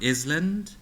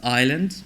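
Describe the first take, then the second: First: The s is pronounced. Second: The s is silent. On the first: The reader applies general spelling rules without knowing the word. The speaker calls it wrong. "might become island" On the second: The reader knows what the word means. The speaker calls it right. "you know how to pronounce them"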